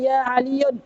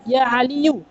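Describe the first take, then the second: First: The name ends with an added n sound. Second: The name ends on a plain u vowel. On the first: The speaker calls it wrong. "tidak boleh dibaca ya Aliyun" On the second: The speaker calls it right. "tapi dibaca ya Aliyu"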